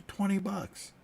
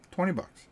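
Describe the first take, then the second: First: Said in the usual way. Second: Twenty bucks with Twenty hit much higher; stressed repeat. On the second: Real, not acted. Marvelling to viewers at the price, Twenty stressed high. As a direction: jump up high on Twenty, then drop on bucks.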